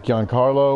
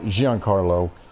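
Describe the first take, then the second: First: The name starts with a hard G sound. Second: The name starts with a soft G sound. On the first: "I think it's a hard G" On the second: "but it might be a soft G"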